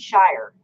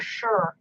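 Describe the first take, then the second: First: The word sounds like 'shire', with a long 'eye' vowel. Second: The word sounds like 'sure', with a short vowel. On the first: The speaker calls it wrong. "Shire is not Shire" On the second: The speaker calls it right. "it's more sure than Shire"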